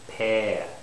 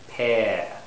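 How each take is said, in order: The two takes are said the same way.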